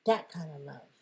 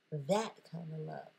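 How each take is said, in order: First: Louder, leaning on That; louder first take. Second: Said in the usual way. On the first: Shown as a demonstration. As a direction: punch That hard.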